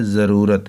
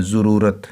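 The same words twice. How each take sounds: First: "ज़रूरत" with a short a, za-roo-rat; short a after the z in "ज़रूरत"; correct pronunciation. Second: "ज़रूरत" with a short u, zu-roo-rat; mispronunciation. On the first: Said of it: "तो ज़रूरत नहीं है". ("ज़रूरत" में ज़ुआद पर ज़बर, ज़-रूरत) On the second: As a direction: say "ज़रूरत" as children misread it, zurūrat. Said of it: "कई बच्चे इसे ज़रूरत पढ़ते हैं". ("ज़रूरत" को पेश के साथ ज़ुरूरत बोलना) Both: Shown as a demonstration.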